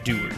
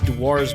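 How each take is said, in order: First: The word is said unlike its spelling. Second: The word is read the way it is spelled. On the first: "but it's pronounced Dewar's because it's a Scotch word" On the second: "It's spelled like it says Dewar's"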